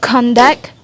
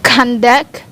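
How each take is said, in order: Both takes have the same delivery.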